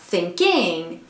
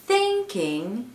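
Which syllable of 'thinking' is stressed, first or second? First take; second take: second; first. First: The stress is on the second syllable. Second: The stress is on the first syllable. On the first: The speaker calls it wrong. "on ne dit pas thinking" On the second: The speaker calls it right. "on dit thinking"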